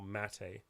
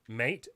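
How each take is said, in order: First: It sounds unlike the word for a friend. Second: It sounds like the word for a friend.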